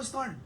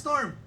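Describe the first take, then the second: First: Said in the usual way. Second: Louder. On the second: Shown as a demonstration. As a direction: say "Storm" louder. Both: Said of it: "Mas malakas".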